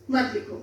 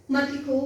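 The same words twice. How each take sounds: The two takes are said the same way.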